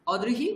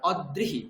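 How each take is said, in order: First: "অদৃহি" as o-drihi, d with ri; joined dri. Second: "অদৃহি" as od-drihi; split consonants. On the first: Teacher lists three pronunciations, dri joined. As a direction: keep first vowel of "অদৃহি" open, then drihi. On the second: Teacher lists three pronunciations, d split off. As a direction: close first syllable of "অদৃহি" on a held d. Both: Shown as a demonstration. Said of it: "তিনটে আলাদা উচ্চারণ".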